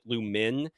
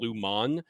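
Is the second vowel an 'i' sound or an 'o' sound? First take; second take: i sound; o sound. First: The second syllable has an 'i' vowel. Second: The second syllable has an 'o' vowel. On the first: This is how most people say it. "everyone kind of pronounces it Lumin" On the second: This matches how it is spelled. "rather than Lumon, even though it's spelled with no"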